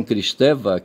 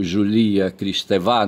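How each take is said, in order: First: Said in the usual way. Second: "Julia Kristeva" said slowly, stress on the last syllable; slow French-style "Julia Kristeva", stressing the final "va". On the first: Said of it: "acentuar as palavras, é, na última sílaba". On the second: Shown as a demonstration. Trying the French stress on a Brazilian writer's name. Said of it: "não sei se é assim que é em francês".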